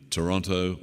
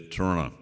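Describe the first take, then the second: First: Said in the usual way. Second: Toronto said as "Tronna", second t dropped; local Toronto pronunciation. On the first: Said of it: "They don't say Toronto". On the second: Shown as a demonstration. Visiting speaker showing delegates how locals say it, Toronto as "Tronna". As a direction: swallow the vowels in Toronto: "Tronna". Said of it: "as they say there".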